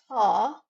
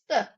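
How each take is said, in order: First: The vowel is a long, open 'a'. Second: The vowel is a short, reduced sound. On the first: The speaker calls it wrong. "It's not ta" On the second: The speaker calls it right. "it's the"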